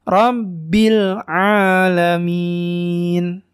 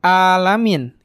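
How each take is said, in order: First: Rabbil alamin chanted slowly with throaty ain; clear ain. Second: Alamin with a plain glottal "a"; hamzah instead. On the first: Teacher recites correctly, slow alamin with ain. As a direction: stretch alamin, opening it from the throat. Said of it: "Nah, seperti itu". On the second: Teacher shows mistake, alamin with hamzah. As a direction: start alamin on simple hamzah, no throat squeeze. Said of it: "Kalau itu pakai hamzah ya". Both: Shown as a demonstration.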